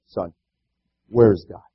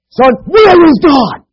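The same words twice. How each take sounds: First: It is asked in a mild, plain tone. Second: It is asked in a very firm tone.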